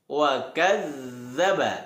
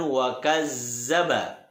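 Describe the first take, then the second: First: The middle consonant is a soft 'dh' sound. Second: The middle consonant is a buzzing 'z' sound. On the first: The speaker calls it right. "huruf za" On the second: The speaker calls it wrong. "bukan wakazzaba"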